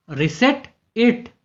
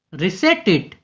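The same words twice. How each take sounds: First: Reset it drawn out slowly, ending on it; slow clear model. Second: Said in the usual way. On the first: Shown as a demonstration. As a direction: say reset it slowly so learners catch it. (धीरे-धीरे, साफ़ बोलकर) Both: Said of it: "इसे वापस set करो".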